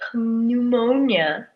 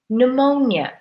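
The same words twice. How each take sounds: First: The word begins with an audible P sound. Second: The word begins with no P sound. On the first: The speaker calls it wrong. "We don't say pneumonia" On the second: The speaker calls it right. "we say pneumonia, as if the P is not there"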